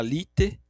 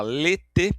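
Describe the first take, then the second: First: Lite, said with an I in place of the diphthong; wrong vowel demo. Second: Lete, said with a closed E instead of the usual sound; wrong vowel demo. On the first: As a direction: pronounce lite with only an I. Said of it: "se você falar lite". (pronúncia errada lite com som de I) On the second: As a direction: pronounce lete with a plain E, no I sound. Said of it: "se você falar lete". (pronúncia errada lete com E fechado) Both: Shown as a demonstration.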